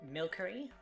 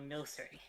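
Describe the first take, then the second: First: The middle consonant is a hard k sound. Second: The middle consonant is a soft s sound. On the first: The name comes from the word milk. The speaker calls it wrong. "Do you say milkery" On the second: The name blends milk and alchemy. The speaker calls it right. "or milcery?"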